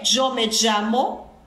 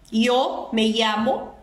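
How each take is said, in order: First: The y and ll sound like a j. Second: The y and ll sound like an i.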